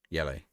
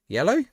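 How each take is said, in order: First: Said in the usual way. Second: High, rising disbelief; can't believe it's only yellow; surprised question. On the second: Real, not acted. Streamer reacting to the referee's card, with surprised disbelief.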